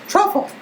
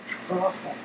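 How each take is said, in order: First: The word is said at a quicker pace. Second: The word is drawn out very slowly.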